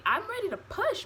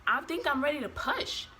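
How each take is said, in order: First: High-pitched, exasperated insistence; urgent insistence. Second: Mildly insistent, a little raised in pitch; retold urgent notice, held in check. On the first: Retold or imitated. Labouring mother repeating herself to the nurse, urgently insistent. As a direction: retell it pitched right up, demanding to be believed. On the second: Labouring mother telling her nurse, mildly insistent.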